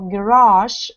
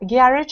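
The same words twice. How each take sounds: First: It is said with an American pronunciation. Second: It is said with a British pronunciation. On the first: "British or American words" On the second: "British or American words"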